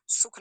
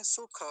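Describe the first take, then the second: First: सुख cut off right on the kh; wrong clipped ending. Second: सुख said as two syllables, su-kha; full final vowel. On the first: Teacher rejecting the everyday form, clipped ending. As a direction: say सुख as one syllable, sukh. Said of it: "सुख नहीं है". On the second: Teacher correcting students, full final vowel. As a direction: release सुख into a clear kha. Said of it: "लेकिन सुख नहीं बोलेंगे". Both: Shown as a demonstration.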